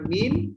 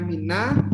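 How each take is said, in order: First: The word ends with a bare consonant sound. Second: The word ends with an added vowel sound. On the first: This is the basic form with no vowel on the last letter. "sebenarnya min, di sini sukun juga" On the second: The final consonant gets a vowel because two vowelless sounds meet. "dia jadi bacanya mina"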